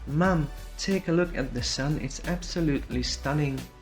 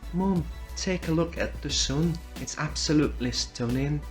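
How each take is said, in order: First: It is spoken in a Southern British accent. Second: It is spoken in a Northern British accent. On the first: "Southern British" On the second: "Northern British"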